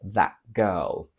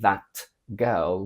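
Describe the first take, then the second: First: The T in 'that' is a glottal stop. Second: The T in 'that' is fully released. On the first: The speaker calls it right. "we say" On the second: The speaker calls it wrong. "We don't say"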